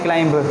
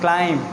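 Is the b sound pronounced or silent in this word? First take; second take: pronounced; silent. First: The word is said with a b sound. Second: The word is said with no b sound. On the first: The speaker calls it wrong. "Don't say like क्लाइंब" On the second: The speaker calls it right. "This is क्लाइंब"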